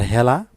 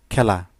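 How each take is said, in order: First: Regional হেলা with h for kh; regional form. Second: Standard খেলা with an opening kh; standard form. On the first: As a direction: say হেলা as "hela". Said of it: "আরও অনেক শব্দ আছে আঞ্চলিক". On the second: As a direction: say খেলা as "khela". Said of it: "ডান পাশে হচ্ছে প্রমিত রূপ". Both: Shown as a demonstration.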